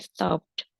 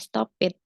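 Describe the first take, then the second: First: The ending adds no extra syllable. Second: The ending is said as an extra syllable. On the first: The speaker calls it right. "tapi stopped" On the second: The speaker calls it wrong. "Bukan stop it"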